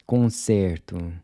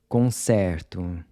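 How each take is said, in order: First: Concerto with a closed E; concerto, E tight like a short "say". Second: Concerto with an open E, like the E in air; concerto, E opened wide. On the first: Teacher models Portuguese concerto with a closed E. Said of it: "closed E". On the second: Teacher models Portuguese concerto with an open E. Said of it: "open E's in purple are pronounced". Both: Shown as a demonstration.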